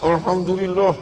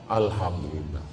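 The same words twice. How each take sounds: First: It is said tightly, with a resentful, angry tone. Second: It is said openly, with a relieved, released tone. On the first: The speaker is secretly envious and angry. The speaker calls it wrong. "Berarti marah" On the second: The speaker is sincerely glad for the other person. The speaker calls it right. "Orang kalau hatinya bersih, ngomong alhamdulillahnya plong"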